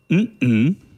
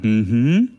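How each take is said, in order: First: The hum is said as a sign of denial. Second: The hum is said as a sign of agreement. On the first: The speaker disagrees. "oder mhm, um es zu verneinen" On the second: The speaker agrees. "zustimmen sagen mhm"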